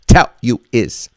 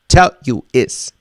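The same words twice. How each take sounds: First: The words are choppy, with breaks between them. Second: The words are choppy, with breaks between them.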